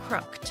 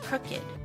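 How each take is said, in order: First: The -ed ending sounds like a usual past tense. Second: The -ed ending sounds unlike a usual past tense. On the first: The speaker calls it wrong. "it has the ed, but the pronunciation is not crooked" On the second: The speaker calls it right. "It's crooked"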